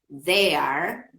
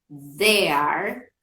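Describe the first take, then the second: Both takes have the same delivery.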